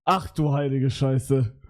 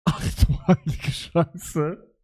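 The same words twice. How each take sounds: First: Said in the usual way. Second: Slow, drawn-out stunned disbelief. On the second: Real, not acted. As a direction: let the shock sink in slowly. Shocked at the generated picture.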